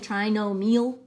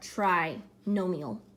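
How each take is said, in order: First: The stress is on the last syllable. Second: The stress is on the first syllable.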